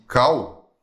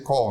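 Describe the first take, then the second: First: It is said with a Brazilian Portuguese accent. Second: It is said with an English accent.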